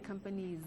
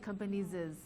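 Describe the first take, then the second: First: The word ends with no extra syllable. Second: An extra 'iz' syllable follows the word. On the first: The speaker calls it right. "we say companies" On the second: The speaker calls it wrong. "we don't say companies is"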